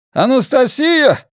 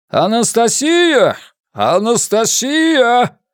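First: High drawn-out shout across a platform; calling out. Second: Loud drawn-out male call across a crowd; booming call. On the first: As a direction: yell the name over the crowd. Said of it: "продолжал взывать мужчина". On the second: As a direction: call the name out long and loud. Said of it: "зычный мужской голос". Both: A narrator's reading.

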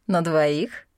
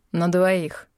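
First: "На двоих?" as a teasing rising question; mocking question. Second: "На двоих" said flatly with falling tune; firm statement. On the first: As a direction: lift "На двоих?" in amused disbelief. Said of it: "бросил на него насмешливый взгляд". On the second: Acted. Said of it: "тотчас добавил Мор".

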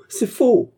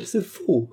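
First: C'est faux! pushed even higher and louder, near a shriek; the last frantic denial at full force; desperate shriek. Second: High-pitched cry of C'est faux!; high denial. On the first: Fernand denying the theft, shrieking. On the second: Fernand denying the theft, crying high. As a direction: insist it is false, voice climbing. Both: A narrator's reading. Accused man protests innocence.

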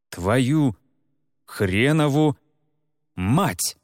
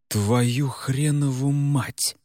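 First: Each word apart, хренову raised highest; word-by-word curse. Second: Drawn-out shocked swearing; slow stunned curse. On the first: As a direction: split Твою, хренову, мать with long pauses. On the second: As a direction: let the curse sink in slowly. Реджес понимает ужасное. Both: Acted.

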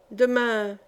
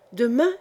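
First: Said in the usual way. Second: "Demain" thrown back with a rising question tune; questioning echo. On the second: A narrator's reading. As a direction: challenge "Demain" as a question, voice climbing. She throws his word back. (« Demain » repris en question, ton montant)

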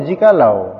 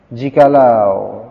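First: Said in the usual way. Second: Jikalau stretched very slowly, rising at the end; slow, rising Jikalau stressing lau; drawn-out jikalau. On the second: Shown as a demonstration. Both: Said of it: "Kan lau".

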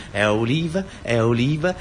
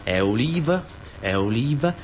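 No difference in how they are said.

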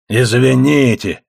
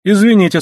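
First: Slow, drawn-out mocking echo; передразнивание. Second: Said in the usual way. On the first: A narrator's reading. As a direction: mimic the apology slowly, mockingly. (протяжно передразнивая) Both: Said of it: "передразнил Доус".

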